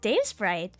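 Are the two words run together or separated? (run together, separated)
run together. The two words are run together as one. The speaker calls it right. "it's just Dave Sprite"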